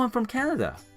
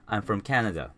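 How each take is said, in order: First: It is said with lively emotion. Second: It is said flatly, without emotion. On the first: The speaker calls it right. "answer questions with emotions" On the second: The speaker calls it wrong. "don't just answer"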